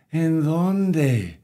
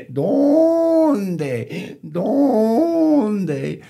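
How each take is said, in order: First: Said in the usual way. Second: Loud, high braying stretched over the word; donkey bray. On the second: Acted. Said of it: "the donkey brayed".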